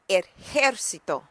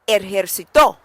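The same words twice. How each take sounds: First: The stress is on the syllable jer. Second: The stress is on the final syllable to.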